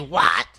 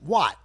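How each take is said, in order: First: It is said in a rude, aggressive tone. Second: It is said in a plain, neutral tone.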